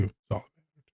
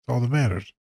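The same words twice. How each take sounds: First: Much softer, fading echo; quiet afterthought echo; soft repeat. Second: Said in the usual way. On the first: Shown as a demonstration. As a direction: drop it to a murmur.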